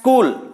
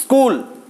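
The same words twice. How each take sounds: First: The word starts directly with a hissing s. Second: The word starts directly with a hissing s.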